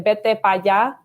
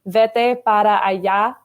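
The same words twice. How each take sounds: First: The words are shortened, with sounds dropped. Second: Every word is pronounced fully and clearly. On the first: The speaker is from the countryside. "you literally cut all the words in half essentially" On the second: This is the standard way of speaking. "instead of saying"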